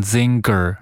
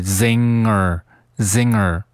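First: "zinger" wrongly said zing-ger; "zinger" as zing-ker, with an extra stop; hard G in "zinger". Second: "zinger" as zing-er, no hard g; "zinger" drawn out with a purely nasal ng; soft ng in "zinger". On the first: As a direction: add a hard g after the ng in "zinger". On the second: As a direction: slowly, keep only the ng in "zinger". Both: Shown as a demonstration. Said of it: "注意不要读成zinger".

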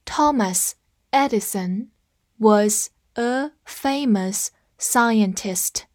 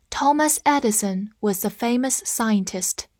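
First: Very slow, each word set apart; slow teacher read-along. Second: Said in the usual way. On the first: Shown as a demonstration. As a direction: read it slowly so students can follow. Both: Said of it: "跟我慢读一遍".

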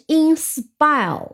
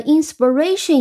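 First: "inspire" with the second syllable, spire, stressed. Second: "inspiration" with the stress moved to ra. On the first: Teacher shows the verb's original stress, "inspire" stressed on spire. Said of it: "重音本来是". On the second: Teacher shows the noun's shifted stress, "inspiration" stressed on ra. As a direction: say "inspiration" leaning on the ra of ration. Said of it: "重音发在的re这个上面". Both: Shown as a demonstration.

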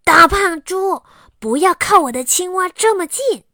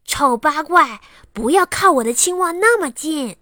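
First: Loud, higher, rude yell; angry shout. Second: Put-on loud, higher, nasty child's insult; fierce snap. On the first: Acted. Xiaowei yells at Aliang to keep off his frog, loud and rude. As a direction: shout him away from the frog. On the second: Xiaowei snarls at Lala to keep off his frog, loud and fierce. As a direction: bark it at her to get away. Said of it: "很凶地对拉拉说".

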